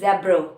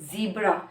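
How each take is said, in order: First: It is said in a British accent. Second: It is said in an American accent. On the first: "And in the British accent, they use zebra" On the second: "in the American accent, they say zebra"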